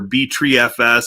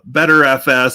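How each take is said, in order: First: The first part sounds like "B-tree". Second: The first part sounds like "better". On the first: "however you want to uh, pronounce that" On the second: "however you want to uh, pronounce that"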